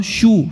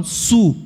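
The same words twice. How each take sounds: First: "Shu" with a hushing sh; sh sound. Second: "Su" with a hissing s, no sh; s sound. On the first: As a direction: say "Shu" as English shoe. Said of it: "eles não falam Shu". (som chiado, "Shu" como xu) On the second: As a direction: say "Su" like English Sue. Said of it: "falam Su". (som de s, "Su" sem chiado) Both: Shown as a demonstration.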